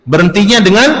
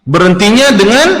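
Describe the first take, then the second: The two takes are said the same way.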